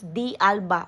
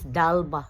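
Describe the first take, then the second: First: It is said as a letter, then the word. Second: It is said as one joined word. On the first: The speaker calls it wrong. "Akala nako pag pronounce ni is D Alba" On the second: The speaker calls it right. "ang pag-pronounce sa day ani according to Cristel Folgar is Dalba"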